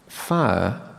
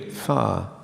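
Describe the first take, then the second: First: The vowel glides through three vowel qualities. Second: The vowel is one long smoothed sound.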